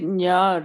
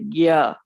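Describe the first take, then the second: First: It begins with a nasal ny sound. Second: It begins with a hard g sound. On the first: This is how our group says it. "we say nya" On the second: This is how another group says it. "They say gya"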